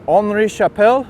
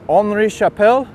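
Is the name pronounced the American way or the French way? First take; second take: French; French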